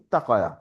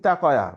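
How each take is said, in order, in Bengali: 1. t ধ্বনিটি দ্বিত্ব আর টানা। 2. t ধ্বনিটি ছোট আর একক। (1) "ওটার চেয়ে ইত্তা কয়া একটু ভালো হইলো" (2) "এটা যদি বলেন ইতা কয়া"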